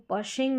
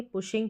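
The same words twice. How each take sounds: First: पशिंग with a short "uh" after the p; wrong pronunciation. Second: पुशिंग with a short "oo" after the p; correct pronunciation. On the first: Teacher showing learners the wrong reading of pushing, mispronounced. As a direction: say पशिंग with the vowel of "cut". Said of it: "इसको पशिंग नहीं पढ़ेंगे". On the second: Teacher showing learners the right reading of pushing, correctly pronounced. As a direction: say पुशिंग with the vowel of "put". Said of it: "पुशिंग पढ़ेंगे". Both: Shown as a demonstration.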